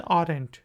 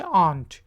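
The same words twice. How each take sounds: First: Aren't with the r pronounced, arent; the mistaken reading of aren't; wrong r sound. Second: Aren't as ant, r silent. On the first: Teacher showing the common mistake. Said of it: "ये गलती बहुत से लोग करते हैं". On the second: Teacher giving the correct aren't. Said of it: "आर जो है वो साइलेंट है". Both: Shown as a demonstration.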